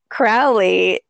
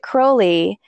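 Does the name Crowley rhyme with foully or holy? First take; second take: foully; holy. First: The first syllable rhymes with "cow". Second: The first syllable rhymes with "slow". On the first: The speaker believes he behaved foully. "if you believe that he behaved foully" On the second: The speaker believes he behaved holy. "if you believed he behaved holy"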